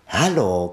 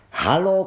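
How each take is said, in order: First: Said in the usual way. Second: Bright call with a high rising lift; cheerful hello call. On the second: Acted. Water Rat hails Mole across the river, high rising call.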